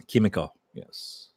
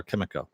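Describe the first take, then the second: First: Lightly put-on French accent; mock French pronunciation of Kimiko; bad French accent. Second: Said in the usual way. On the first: Shown as a demonstration. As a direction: say the name as a Frenchman might, badly. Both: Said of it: "My really bad French accent".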